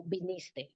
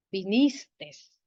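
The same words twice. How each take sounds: First: "viniste" without final S; correct form. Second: "Vinistes" with the final S; wrong form. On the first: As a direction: say "viniste" softly, ending on E. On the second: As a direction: say "Vinistes" with an audible extra S at the end. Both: Shown as a demonstration. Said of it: "No, viniste".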